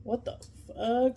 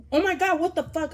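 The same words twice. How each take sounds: First: Slow, drawn-out, muted bewilderment; dazed disbelief. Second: High, loud mock-shocked exclamation; shocked outburst. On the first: Retold or imitated. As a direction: stretch it out as if unsure it happened. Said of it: "I was just like". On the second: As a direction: act out an over-the-top freak-out. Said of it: "my reaction wasn't like".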